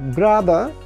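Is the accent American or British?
British. It is said in a British accent.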